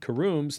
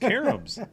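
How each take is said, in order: First: The word is said as 'carooms'. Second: The word is said as 'caroms'. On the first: The speaker calls it wrong. "not carooms" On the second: The speaker calls it right. "Caroms, not carooms"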